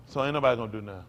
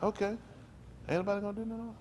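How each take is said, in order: First: Said in the usual way. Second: High, softer quoted question; looking around, questioning. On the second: Acted. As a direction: act out someone checking if anyone will step in. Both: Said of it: "he looked around like".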